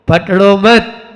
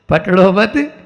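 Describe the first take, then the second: The two takes are said the same way.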